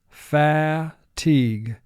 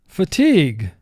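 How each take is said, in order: First: The first syllable has a full, clear vowel. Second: The word is said naturally with a reduced first vowel.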